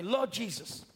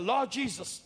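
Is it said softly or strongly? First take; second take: softly; strongly. First: It is said softly. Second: It is said strongly.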